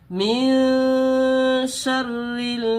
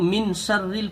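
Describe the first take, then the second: First: The n is hidden in a nasal hum. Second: The n is pronounced clearly without nasal hiding. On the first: The speaker calls it right. "सही तरीका ये है" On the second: The speaker calls it wrong. "ये दुरुस्त नहीं है"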